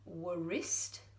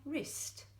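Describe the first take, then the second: First: The W sound is pronounced before the R. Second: The W sound is silent before the R. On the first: The speaker calls it wrong. "We don't say wrist" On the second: The speaker calls it right. "we just say my wrist"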